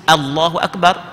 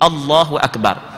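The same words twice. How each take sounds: First: Allahu begins with an open 'a' sound. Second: Allahu begins with a rounded 'o' sound. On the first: The speaker calls it right. "tidak sebut" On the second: The speaker calls it wrong. "dia sebut O"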